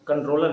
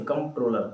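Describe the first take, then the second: First: कंट्रोलर said with an N before the T, as in "controller"; wrong pronunciation. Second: कंट्रोलर said with M in place of N, "komp-troller"; correct pronunciation. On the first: Teacher showing students the mistaken reading, कंट्रोलर with an N sound. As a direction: say कंट्रोलर as "kon-troller", with N. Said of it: "कंट्रोलर नहीं, कंट्रोलर, सीओएमपीटी". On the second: Teacher correcting students' reading, कंट्रोलर with an M sound. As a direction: say कंट्रोलर as "kom-troller", from the COMPT spelling. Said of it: "सीओएमपीटी वाला". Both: Shown as a demonstration.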